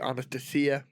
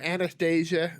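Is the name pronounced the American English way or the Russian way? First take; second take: Russian; American. First: The name is said with a Russian pronunciation. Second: The name is said with an American English pronunciation. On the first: "but in Russia it would be Anastasia" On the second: "how we typically pronounce it here in the United States"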